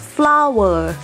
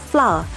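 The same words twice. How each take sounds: First: It is said with a Thai pronunciation. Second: It is said with a New Zealand pronunciation. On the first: "in Thailand we pronounce flower" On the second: "they call flower"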